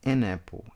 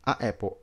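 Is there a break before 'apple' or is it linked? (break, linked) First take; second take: linked; break. First: The article links smoothly into the noun. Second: There is a break between the article and noun. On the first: The speaker calls it right. "Tudo se conecta" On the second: The speaker calls it wrong. "olha esse corte que tá dando"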